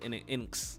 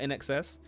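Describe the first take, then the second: First: The name is read as 'in inks'. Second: The name is read as 'in excess'. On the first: The speaker calls it wrong. "I would have said In Inks" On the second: The speaker calls it right. "but In Excess"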